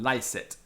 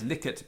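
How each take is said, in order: First: The first vowel is a diphthong, as in 'lie'. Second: The first vowel is short, as in 'lick'.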